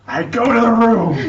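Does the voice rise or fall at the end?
fall. It falls at the end like a statement.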